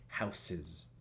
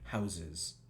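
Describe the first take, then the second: First: The consonant before the ending is an s. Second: The consonant before the ending is a z. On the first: The speaker calls it wrong. "en lugar de" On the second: The speaker calls it right. "debería ser doble Z"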